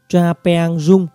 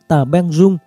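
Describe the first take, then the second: First: The name is said in its original form. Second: The name is said in Vietnamese form. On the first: "viết đúng của nó là Tra Peang Rung" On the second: "Người Việt nói và đọc là Tả Beng Rung"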